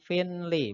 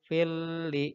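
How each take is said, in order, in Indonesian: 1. Bunyi n yang jelas terdengar sebelum l. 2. Bunyi n menyatu menjadi bunyi l yang dobel. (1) "bukan finli" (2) "tapi fil li ism. Jadi tanwinnya masuk ke huruf lam"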